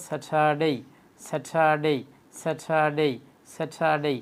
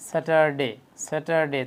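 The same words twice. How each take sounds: First: স্যাটারডে with breathy "tha" and long "dey"; correct Saturday. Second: স্যাটারডে with unaspirated T and short "de"; wrong Saturday. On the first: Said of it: "স্যাটারডে না বলে কি বলবো". (স্যাটারডে শুদ্ধ উচ্চারণে, "স্যাঠাডেই") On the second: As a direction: say স্যাটারডে with a hard T, ending in a short "de". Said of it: "এই উচ্চারণগুলো সম্পূর্ণটাই ভুল". (স্যাটারডে ভুল উচ্চারণে, ছোট "ডে") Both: Shown as a demonstration.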